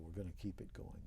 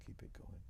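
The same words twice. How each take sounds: First: Said in the usual way. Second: Whispered echo. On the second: Real, not acted. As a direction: whisper it back, almost to himself. Repeating a vow, fading down.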